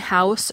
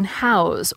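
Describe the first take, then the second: First: The word ends with a hissing S sound. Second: The word ends with a buzzing Z sound. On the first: "the S sound in house" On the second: "the Z sound in house"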